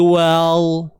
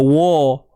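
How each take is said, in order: First: The vowel sounds overly thin, like 'well'. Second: The vowel sounds heavy and thickened. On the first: "kita nak nipiskan wa tu sampai nipis tu jadi nipis sangat" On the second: "Wa tak tebal. Ha, jangan wa"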